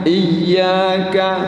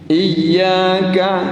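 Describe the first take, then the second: Both takes have the same delivery.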